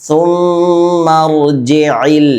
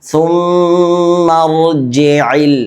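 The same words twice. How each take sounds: Both takes have the same delivery.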